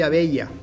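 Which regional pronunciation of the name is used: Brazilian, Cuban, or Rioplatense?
Cuban. The name is said the Cuban Spanish way. "En Cuba soy Abella"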